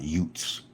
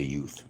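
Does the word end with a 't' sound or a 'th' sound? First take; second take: t sound; th sound. First: The word ends with a hard 't' sound. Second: The word ends with a soft 'th' sound. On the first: "not Utes" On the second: "I say youth"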